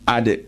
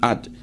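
First: The final D ends with an echoing bounce. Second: The final D stops flat without any echo. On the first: The speaker calls it right. "You have to give echo sound to Dal" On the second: The speaker calls it wrong. "You will not say"

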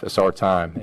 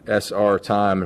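First: It is said quickly, the letters run together. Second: It is said at a normal, unhurried pace. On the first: It sounds like saying it is our time. "if you say it fast enough" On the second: It stands for Saskatchewan Rough Rider time. "we put SR time for Saskatchewan Rough Rider time"

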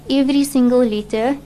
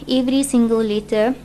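Both takes have the same delivery.

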